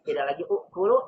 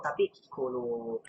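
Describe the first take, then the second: First: Ukulu with its opening u; ukulu, the form before the change; old form ukulu. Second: Kulu, slow and soft, no u; shortened kulu. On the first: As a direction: say ukulu with the u in front. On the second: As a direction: drop the u and land softly on kulu. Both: Shown as a demonstration. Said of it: "dihapus hamzahnya menjadi kulu".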